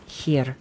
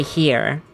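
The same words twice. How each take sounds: First: "here" softer, with a lightly rolled final R; Icelandic "here". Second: Said in the usual way. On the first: Shown as a demonstration. Gamer showing the Icelandic way, "here" with rolled R. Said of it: "instead they do". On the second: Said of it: "If they wanna say here".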